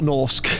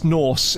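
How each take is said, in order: First: The word ends with a k sound. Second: The word ends without a k sound. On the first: The speaker calls it wrong. "I want to end it with a K, when that's not what it is" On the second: The speaker calls it right. "It's Norse"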